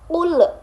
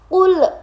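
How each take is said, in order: First: The final l is bounced with an echo. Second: The same.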